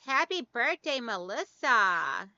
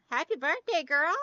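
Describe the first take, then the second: First: Said in the usual way. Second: Higher, bright greeting to a friend; cheerful birthday shout-out to a viewer; excited birthday wish. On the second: Real, not acted.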